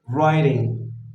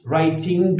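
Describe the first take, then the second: First: The ending is a single nasal ng sound. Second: The ending has a separate hard g sound. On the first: The speaker calls it right. "instead we say" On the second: The speaker calls it wrong. "We don't say"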